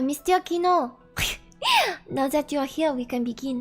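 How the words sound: It is spoken in a put-on French accent.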